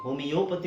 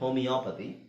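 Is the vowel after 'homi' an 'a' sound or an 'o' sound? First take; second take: o sound; a sound. First: The vowel after 'homi' is a full 'o'. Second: The vowel after 'homi' is an 'a' sound. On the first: The speaker calls it wrong. "ಹೋಮಿಯೋಪತಿ ಅಂತ ಹೇಳ್ತಾರೆ" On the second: The speaker calls it right. "Actual pronunciation ಹೋಮಿಯಾಪತಿ"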